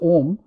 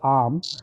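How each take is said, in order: First: The word starts with an 'oh' vowel. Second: The word starts with an 'ah' vowel. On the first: "what is commonly pronounced as om" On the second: "I like to pronounce it, uh, I think correctly, as am"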